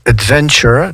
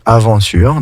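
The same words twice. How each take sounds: First: Adventure said the English way with a clear D and a nasal VEN; English adventure with a crisp D before VEN. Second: Aventure said the French way with no D sound, a-van-TURE; French aventure, open a and nasal van with no D. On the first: French teacher modelling the English word adventure, English pronunciation. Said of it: "contrairement en français". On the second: French teacher contrasting it with the English word, plain French pronunciation. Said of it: "qu'on va écrire avec un D". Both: Shown as a demonstration.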